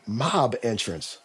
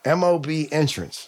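First: "mob entrance" said as the word mob, slow and soft; read as a word. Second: "M O B entrance" with each letter spoken separately; spelled out. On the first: Reading a hospital elevator sign aloud, as one word. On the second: Correcting the sign reading, letters spelled out. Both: Retold or imitated.

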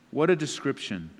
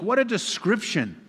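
First: Said in the usual way. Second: High, amazed cry of wonder; awed exclamation. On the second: Real, not acted. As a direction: marvel at it aloud. Preacher exclaims in awe.

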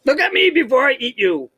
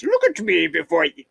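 First: High-pitched mock monster voice; głos potwora. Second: Lightly attempted German accent. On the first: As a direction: play the Snallygaster menacing its prey, pitched up high. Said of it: "That's what he says to him?". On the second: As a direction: have a half-hearted go at a German monster. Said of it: "But maybe in a German voice".

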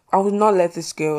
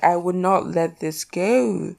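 First: Said in the usual way. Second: Slow, drawn-out "I would not let this go"; emphatic. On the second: Real, not acted. Host insisting on her point, slow emphatic "I would not let this go". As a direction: stretch each word, ending long on "go". Repeats herself slowly for emphasis.

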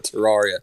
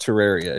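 First: Terraria said "tuh-RAR-ee-uh"; Terraria with an open "ah" middle; habitual mispronunciation. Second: Terraria said "tuh-RARE-ee-uh"; Terraria, middle rhyming with rare; proper pronunciation. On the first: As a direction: say Terraria with an "ar" as in car. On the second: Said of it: "It's properly pronounced Terraria". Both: Shown as a demonstration.

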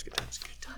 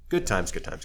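First: Softer breathy whisper, pitched up; whispered echo. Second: Said in the usual way. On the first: Shown as a demonstration. Recalling being blacklisted, whispered ironic echo. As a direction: breathe the repeat as a sardonic aside. Ironic repeat, then echoed.

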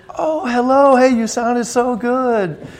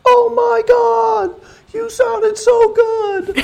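First: A lightly voiced, higher friendly greeting, slowed on the compliment; a mild hint of a girlish gush. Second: Much higher, louder, slow squealing gush; hammed-up fangirl squeal over his guitar playing. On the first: Plainer first retelling of [name] greeting him after the gig, lightly voiced. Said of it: "and she goes". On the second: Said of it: "I'll do my imitation".

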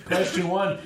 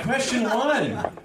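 First: Said in the usual way. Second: "Question one" stretched slow and high like a quiz host; milk "Question one" like a quiz show; drawn-out announcer. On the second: Shown as a demonstration. Host opening the quiz round, slow hammed-up quiz host voice.

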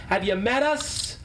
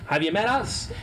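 First: Slower, drawn-out tease; playful jab; teasing. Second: Said in the usual way. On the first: Real, not acted. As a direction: lean on us, mock offended. Teasing repeat.

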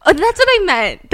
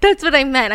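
First: Emphatic correction. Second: Said in the usual way. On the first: Real, not acted.

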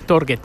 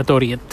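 First: Torget said as spelt, with a hard G; as written. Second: Toriet with the G said like an I, "tor-yet"; Swedish pronunciation. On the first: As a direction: read Torget exactly as it is written. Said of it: "se escribe Torget, tal como suena". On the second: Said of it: "pero se pronuncia Toriet". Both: Shown as a demonstration.

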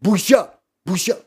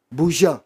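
First: A touch louder, rising chant of shame; mock shouting shame. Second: Said in the usual way. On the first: Mimicking the fools who shout shame, mildly loud and rising. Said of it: "הטיפשים האלה שצועקים". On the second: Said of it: "מה השטויות האלה?".

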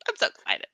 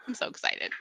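First: Said in the usual way. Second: Whispered excited aside. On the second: Shown as a demonstration. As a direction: breathe it out as a whisper.

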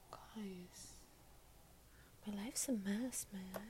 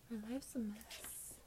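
First: Hushed whisper to viewers; whispered confession. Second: Said in the usual way. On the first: Real, not acted. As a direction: breathe it out like a secret.

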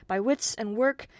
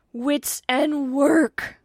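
First: Said in the usual way. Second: Loud, high, drawn-out indignation; indignant cry. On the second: A narrator's reading. Godson echoes his godfather's advice, indignant. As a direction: throw the words back slowly and loudly, outraged. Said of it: "cried the indignant godson".

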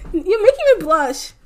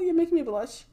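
First: Higher and louder, laughing through it; blushing and laughing at the compliments; flustered laugh. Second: Said in the usual way. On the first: Real, not acted. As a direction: giggle out the words, flustered.

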